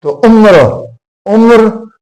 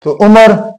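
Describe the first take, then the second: First: उम्र said as one syllable, umr, with no vowel between m and r; teacher says उम्र as umr for students; careful demo pronunciation. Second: उमर said in two syllables, u-mar, with a clear a after the m; teacher sounds out उमर as u-mar for students; careful demo pronunciation. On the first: Teacher contrasts उम्र for students, m and r run together. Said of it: "न ज़ेर है, न ज़बर है, न पेश है". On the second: Teacher models उमर for students with the m and r kept apart. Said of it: "ऐन के ऊपर पेश, मीम के ऊपर ज़बर और रे साकिन". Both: Shown as a demonstration.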